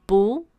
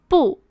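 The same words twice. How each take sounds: First: 不 with a rising tone; 不 in the rising second tone. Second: 不 with a sharp falling tone; 不 in the falling fourth tone. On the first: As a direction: let the pitch climb through 不. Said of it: "into the second tone". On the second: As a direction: drop the pitch sharply through 不. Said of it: "the fourth tone of 不". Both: Shown as a demonstration.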